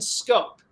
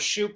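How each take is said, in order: First: It begins with sk and rhymes with hope. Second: It begins with sh and rhymes with hoop. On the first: The speaker calls it right. "is is how you pronounce it" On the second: The speaker calls it wrong. "I thought it was Shoop"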